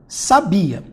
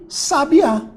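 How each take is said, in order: First: The stress is on the middle syllable. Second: The stress is on the last syllable. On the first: It is a verb. "Essa aqui é a minha sílaba tônica" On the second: It is a noun. "se eu trocar a minha sílaba tônica de lugar e botar o acento"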